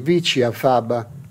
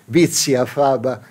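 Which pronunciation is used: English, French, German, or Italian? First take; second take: Italian; German. First: It is pronounced with an Italian accent. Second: It is pronounced with a German accent. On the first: "in Italian" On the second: "in Deutsch"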